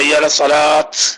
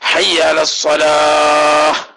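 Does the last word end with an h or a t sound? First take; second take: t sound; h sound. First: The last word ends with a t sound. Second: The last word ends with an h sound. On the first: The speaker calls it wrong. "ചില പാവം പൊട്ടന്മാര് എങ്ങനെ പറയാ" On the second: The speaker calls it right. "ഹാ സുക്കൂനുള്ള ഹാ ആയിട്ടാണ് ഉച്ചരിക്കേണ്ടത്"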